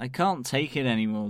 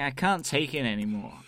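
First: It is said in the speaker's ordinary accent. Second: It is said in an attempted New York accent.

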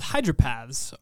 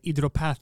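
First: It is said with an English accent. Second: It is said with a French accent.

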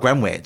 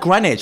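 First: It sounds like "Green-wich", with the w pronounced. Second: It sounds like "Grenich", with a silent w.

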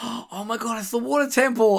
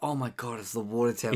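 First: It sounds excited and thrilled. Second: It sounds dismayed and full of dread.

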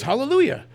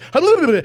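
First: The word is said at a normal pace. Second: The word is said as fast as possible.

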